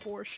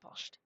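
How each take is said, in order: First: The word is pronounced with English sounds. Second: The word is pronounced with German sounds. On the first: "English would say borscht" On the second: "It's like the most German way I could pronounce that"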